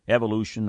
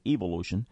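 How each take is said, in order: First: It is said in the speaker's usual accent. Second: It is said in an English accent.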